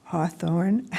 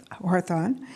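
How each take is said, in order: First: "Hawthorne" retried with an r in the last syllable; corrected name. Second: "Hawthorne" with the r moved into the first syllable; mispronounced name. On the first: Moderator repeating the candidate's correction, name retried with rising tune. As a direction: say "Hawthorne" tentatively, ending in "thorn". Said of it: "why it doesn't come out right". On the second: Moderator calling on the next candidate, name mispronounced. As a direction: say "Hawthorne" roughly as "Harthon". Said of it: "it doesn't come out right". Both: Real, not acted.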